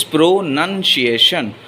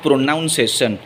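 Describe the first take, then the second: First: "pronunciation" with NUN in the second syllable; correct pronunciation. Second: "pronunciation" with NOUN in the second syllable; mispronunciation. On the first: Teacher showing viewers the correct word, "pronunciation" with a clear nun. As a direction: say "pronunciation" slowly as pro-NUN-ci-a-tion. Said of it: "people often mispronounce the word pronunciation". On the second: Teacher showing viewers the common mistake, "pronunciation" said with noun. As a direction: say "pronunciation" wrongly as pro-noun-session. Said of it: "not pronunciation".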